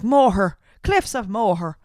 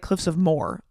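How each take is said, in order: First: "Moher" said in two syllables, mo-her; Irish way. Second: Moher said as one syllable like "more"; "Moher" clipped to a single syllable, mor; her usual way. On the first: Retold or imitated. Imitating how the Irish say "Moher", mo-her. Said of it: "I hear the Irish, they're like". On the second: Shown as a demonstration. Speaker saying Moher her habitual way, as "more". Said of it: "I always say, like".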